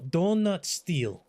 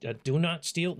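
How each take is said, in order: First: "Donut" said as one word with a long n; Donut Steal, accented. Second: "Do Not Steal" with each word separate; Do Not Steal, careful. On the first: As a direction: stretch it slowly into "Donut Steal". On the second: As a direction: say "Do Not Steal" as three clear words. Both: Shown as a demonstration. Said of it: "No, Donut Steal".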